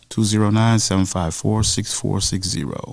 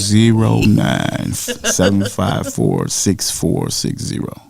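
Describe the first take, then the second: First: The number is read at normal speed. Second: The number is read more slowly.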